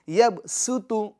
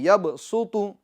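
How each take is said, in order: First: The s sound is thin and whistling. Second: The s sound is heavy and full. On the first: The speaker calls it right. "सीटी ज्यादा है इसमें और बारीक है" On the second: The speaker calls it wrong. "ये पुर की आवाज है"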